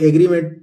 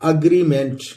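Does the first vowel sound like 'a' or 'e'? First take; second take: e; a. First: The word begins with an 'e' vowel. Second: The word begins with an 'a' vowel. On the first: The speaker calls it wrong. "इसको एग्रीमेंट बहुत सारे लोग बोल देते हैं" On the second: The speaker calls it right. "सही pronunciation है दोस्तों अग्रीमेंट"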